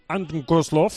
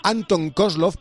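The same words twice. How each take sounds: First: Anton Kozlov in a Russian accent; light Russian accent on the name. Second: Said in the usual way. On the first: Shown as a demonstration. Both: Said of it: "lo puedo decir con acento ruso".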